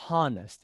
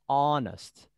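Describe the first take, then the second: First: The first h sound is pronounced. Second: The first h sound is silent. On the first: The speaker calls it wrong. "We don't say honest" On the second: The speaker calls it right. "We never pronounce h. We say honest"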